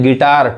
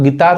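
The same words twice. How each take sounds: First: गिटार with a hard retroflex T; tongue curled back for the T in गिटार; English pronunciation. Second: Tongue on the teeth for the t in गिटार; Hindi pronunciation. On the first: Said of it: "टॉ पढ़ाता है". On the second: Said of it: "यानी हिंदी मतलब गिटार होता है". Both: Shown as a demonstration.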